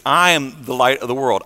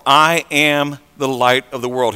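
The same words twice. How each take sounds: First: Said in the usual way. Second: "I am" drawn out slowly; deliberate emphasis. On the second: Retold or imitated. Preacher repeating Jesus' claim to be the light, slow emphasis on "I am". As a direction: weigh each word of "I am", slowly.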